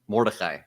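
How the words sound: The name is said with Semitic pronunciation.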